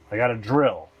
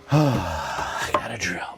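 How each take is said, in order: First: Said in the usual way. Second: Slow sigh, lower, softer delivery; sighing, deadpan. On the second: Shown as a demonstration. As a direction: sigh it out, mock resigned.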